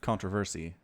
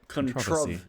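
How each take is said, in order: First: It is said with an American pronunciation. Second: It is said with an Australian pronunciation. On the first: "The American way to say it" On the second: "Oh, Australian. Right"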